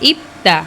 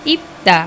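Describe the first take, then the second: The two takes are said the same way.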